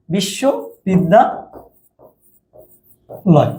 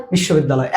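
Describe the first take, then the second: First: বিশ্ববিদ্যালয় very slowly, broken up by long pauses; syllables drawn apart. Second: Said in the usual way. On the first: Shown as a demonstration. Teacher writing out the word to count vowels, slow separated chunks. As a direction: stretch বিশ্ববিদ্যালয় into well-spaced parts.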